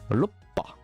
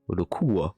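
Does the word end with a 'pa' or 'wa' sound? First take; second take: pa; wa. First: The word ends with a doubled p sound. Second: The word ends with a soft wa sound. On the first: "ça va garder, pour certains, le bas et le pas" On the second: "c'est la première avec wa"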